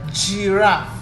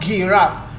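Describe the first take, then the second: First: It begins with a soft j sound. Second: It begins with a hard g sound. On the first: The speaker calls it right. "you make it soft... You say giraffe" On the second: The speaker calls it wrong. "not giraffe"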